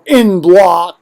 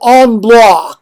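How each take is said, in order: First: The first word is said like English 'in'. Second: The first word has a French nasal vowel. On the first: "as the Americans would read it in a journal" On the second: "as the French say"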